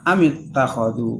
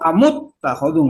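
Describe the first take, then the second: First: The vowel after the m is i. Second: The vowel after the m is u. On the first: The speaker calls it right. "semuanya kasroh" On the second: The speaker calls it wrong. "atau amut takhadhu nggak ada"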